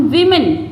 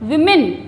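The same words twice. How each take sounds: The two takes are said the same way.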